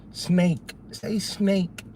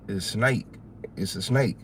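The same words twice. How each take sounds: First: Higher, careful teacher voice: "snake" with a crisp final k; imitating a teacher drilling "snake", every sound clear; a hint of a prim teacher saying "Say snake" with a full, clipped k; mock teacher correcting. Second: Softer, "snake" with the final k dropped, like "snay"; relaxed Southern "snake" without the closing k; his own way of saying it. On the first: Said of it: "they trying to make me say these words". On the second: Retold or imitated. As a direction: say "It's a snake" with the k swallowed, quieter. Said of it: "These words ain't coming out right".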